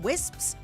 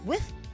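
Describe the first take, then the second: First: The s sounds are pronounced clearly. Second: The s sounds are lisped and blurred.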